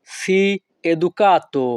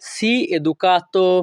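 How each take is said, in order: First: Said in the usual way. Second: "sii educato" drawn out slowly; slow repeat. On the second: Shown as a demonstration. Teacher repeating for students, slow and careful.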